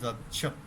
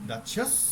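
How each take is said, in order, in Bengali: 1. শব্দটি t ধ্বনি দিয়ে শেষ হয়। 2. শব্দটি s ধ্বনি দিয়ে শেষ হয়। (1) "নট দাচ্ছত" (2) "দাচ্ছস সুমনিকা, নট দাচ্ছত"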